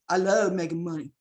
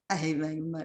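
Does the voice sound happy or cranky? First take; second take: happy; cranky. First: The voice sounds happy and cheerful. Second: The voice sounds cranky and grumpy.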